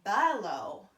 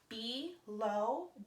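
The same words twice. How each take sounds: First: The first vowel is a weak schwa. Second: The first vowel is a full vowel. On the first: "some people pronounce it differently" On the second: "Some people pronounce it"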